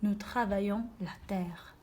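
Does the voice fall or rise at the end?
fall. It is read as a statement, falling at the end.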